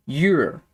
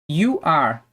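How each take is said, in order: First: "you're" as one syllable; contracted form. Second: "You are" as two separate words; full form. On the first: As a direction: merge it into "you're". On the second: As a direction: keep "You are" uncontracted. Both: Shown as a demonstration. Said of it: "podemos falar também é sobre as contrações".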